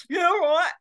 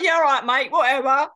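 First: Much higher mock aside out of the side of the mouth; pitched-up sceptical side-mouth yeah right; side-mouth scoff. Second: Mock-sceptical yeah right, pitched up and loud; sarcastic brush-off. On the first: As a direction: mutter it sideways like a disbelieving aside. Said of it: "Side mouth". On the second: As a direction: wave him off as if he's spinning a yarn. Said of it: "And I'm like".

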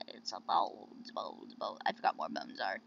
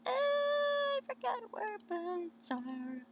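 First: Very low goofy muttering; silly low voice. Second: Slow, very high drawn-out voice; high singsong. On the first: Player fumbling for bones in the game, silly low voice. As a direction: drop far down in pitch, playfully. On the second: Player owning up to forgetting, high singsong. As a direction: stretch it out way up high, playfully. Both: Pretend.

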